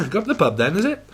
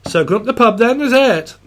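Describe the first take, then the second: First: Quick laughing repeat; laughing through it. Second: Higher, louder Welsh lilt; mock Welsh accent. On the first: Retold or imitated. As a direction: giggle the line out fast. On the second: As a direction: invite a mate to the pub in a Welsh voice. Channeling Welsh pub invite.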